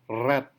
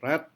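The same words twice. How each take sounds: First: The r is trilled with a vibrating tongue. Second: The r is smooth with no tongue vibration. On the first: This is how Indonesians usually say it. "yang orang Indonesia biasa katakan adalah red, rhythmic, right, scrap. R-nya bergetar" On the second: This is how native English speakers say it. "mereka tidak menggetarkan lidah, tidak ada getaran"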